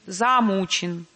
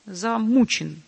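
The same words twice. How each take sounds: First: "замучен" drawn out slowly with a full, long "за"; stretched, over-sounded "за" in "замучен"; overlong first syllable. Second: First syllable of "замучен" cut short, weight on "му"; shortened first syllable. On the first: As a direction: dwell on the first syllable of "замучен" as the faulty example. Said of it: "а не". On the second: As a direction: say "замучен" with a brief, light "за" leading into a stressed "му". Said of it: "на первый слог просил сократить звучность". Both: Shown as a demonstration.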